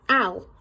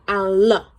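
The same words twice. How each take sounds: First: The sound ends cleanly with no added vowel. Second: The sound ends with an extra 'uh' vowel. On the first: The speaker calls it right. "So it's al" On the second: The speaker calls it wrong. "not al"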